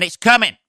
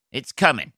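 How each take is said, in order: First: Higher, louder announcement; excited. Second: Said in the usual way. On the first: Real, not acted. Promising listeners the update, excited and louder. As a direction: hype it up for the fans. Teasing the Burnley gig update.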